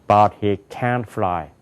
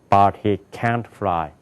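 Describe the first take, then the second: No difference in how they are said.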